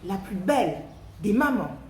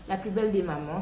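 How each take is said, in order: First: It is said lively, with strong expression. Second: It is read flatly, without expression. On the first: The speaker calls it right. "vous allez vraiment exprimer tous les mots" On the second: The speaker calls it wrong. "au lieu de juste lire votre poésie"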